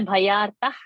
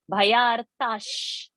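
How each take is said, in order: First: The word ends with an h sound. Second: The word ends with an sh sound. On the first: The speaker calls it wrong. "So not to say bhayartah" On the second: The speaker calls it right. "this visarga has to become sha"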